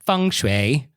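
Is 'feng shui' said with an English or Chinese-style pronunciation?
Chinese-style. It is said with an exaggerated Chinese-style pronunciation. The speaker calls it wrong.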